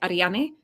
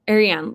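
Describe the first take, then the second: First: It is said with Spanish vowels and sounds. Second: It is said with English vowels, like Marianne. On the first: "they're in Spanish, so you say Ariane" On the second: "like Marianne without them"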